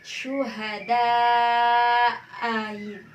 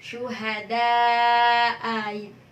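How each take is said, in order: Both takes have the same delivery.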